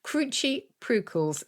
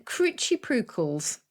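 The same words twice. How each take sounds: First: "Cruchy prucals" repeated slowly and higher, each syllable clear; slow, careful Scots "Cruchy prucals"; Scots word. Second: Cruchy prucals said slowly in Scots; Scots word. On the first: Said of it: "then cruchy prucals is what you need". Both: Shown as a demonstration.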